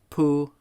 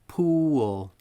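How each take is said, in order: First: It has one part, with the ending dropped. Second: It has two parts, the second falling. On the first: The speaker calls it wrong. "don't say" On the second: The speaker calls it right. "there are two sounds to each of these words"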